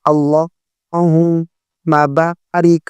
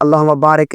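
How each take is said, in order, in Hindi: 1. R के बाद 'i' स्वर है। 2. R के बाद एक अलग स्वर है। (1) "रा के नीचे जेर पढ़ेंगे" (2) "ये गलत है"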